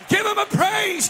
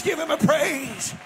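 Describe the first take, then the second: First: Higher, louder call to praise. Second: Said in the usual way. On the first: Real, not acted. Pastor urging the church to praise, high loud call.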